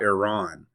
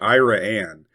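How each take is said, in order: First: It is pronounced a non-local way. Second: It is pronounced the local Texas way. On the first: This is not how the town's name is said locally. The speaker calls it wrong. "not Iran" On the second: This is how the town's name is said locally. The speaker calls it right. "the correct pronunciations"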